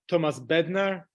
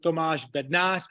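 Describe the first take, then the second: First: The name is said with English-style sounds. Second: The name is said with Czech sounds. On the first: "So I prefer" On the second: "in Czech, we call it"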